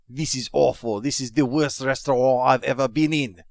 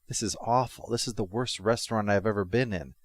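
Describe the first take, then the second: First: It is said in a put-on foreign accent. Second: It is said in the speaker's plain accent. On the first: The complaint sounds ruder and more arrogant. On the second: The complaint sounds ordinary.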